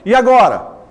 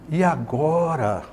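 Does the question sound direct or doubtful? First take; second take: direct; doubtful. First: It is asked directly, without hesitation. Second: It is asked hesitantly, sounding unsure. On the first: A plain question with nothing left unsaid. "se não tivesse a reticência, eu falaria só, ... Direto" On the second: The asker is uncertain or leaving something unsaid. "com a reticência eu vou falar assim ... dá essa ideia, né, de dúvida"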